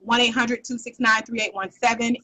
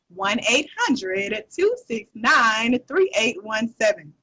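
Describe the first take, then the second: First: The number is said at a quick pace. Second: The number is said slowly.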